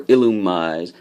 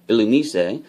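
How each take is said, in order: First: Illumise ending like "eyes"; alternative pronunciation. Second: Illumise ending in "ee-say"; alternative pronunciation. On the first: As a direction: say Illumise slowly as "ill-oo-mize". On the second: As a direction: say Illumise as "ill-oo-mee-say", rising. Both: Shown as a demonstration. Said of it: "I don't know how you pronounce it".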